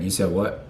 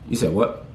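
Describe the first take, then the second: First: It sounds serious and more stern. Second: It sounds casual, with no sign of anger.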